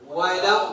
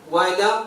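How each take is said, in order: Both takes have the same delivery.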